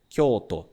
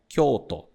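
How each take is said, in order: No difference in how they are said.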